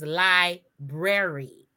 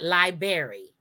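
First: The R after the b is pronounced. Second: The R after the b is dropped. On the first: The speaker calls it right. "So it is library" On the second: The speaker calls it wrong. "We just drop off the R"

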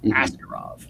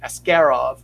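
First: The stress is on the first syllable. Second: The stress is on the second syllable. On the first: This is the usual English habit for the name. "in English, it's you. The hard sound is that first syllable" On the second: This is how the Russian name is pronounced. "in a lot of Russian names, the hard syllable is that second one"

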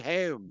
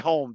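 First: The word is said in a Philly-Baltimore accent. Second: The word is said in a plain, general accent. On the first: This is how local people say it. "They say home" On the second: This is how the listener says it. "You say home"

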